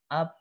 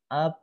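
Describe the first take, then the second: Both takes have the same delivery.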